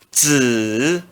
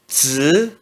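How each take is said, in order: First: The pitch dips low then rises. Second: The pitch rises from mid to high. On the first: "No terceiro tom" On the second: "No segundo tom se pronuncia z"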